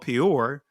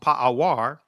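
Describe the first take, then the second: First: The name is said without a w sound, pe-or. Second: The name is said with a w sound, pa-a-war. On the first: This is the usual modern way of saying the name. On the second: This is the old way of saying the name.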